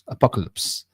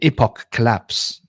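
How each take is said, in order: First: The phrase is said quickly, running words together. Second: The phrase is said at a normal, unhurried pace.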